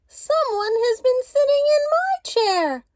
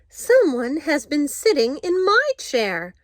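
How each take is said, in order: First: It is said in a wee small voice. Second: It is said in a middle-sized voice.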